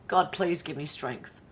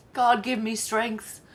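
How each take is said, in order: First: Muttered prayer. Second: Slow, loud, drawn-out plea to God for patience; loud exasperated groan of "God". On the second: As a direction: stretch out "God, give me strength" loudly, fed up. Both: Real, not acted.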